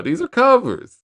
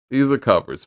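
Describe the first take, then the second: First: High, pressed insistence on ARE; "These ARE covers" hit high and hard; emphatic insistence. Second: Said in the usual way. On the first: Real, not acted. Reviewer insisting to viewers the songs aren't original, stressing ARE. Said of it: "These are covers, man".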